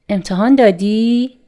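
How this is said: The voice rises at the end.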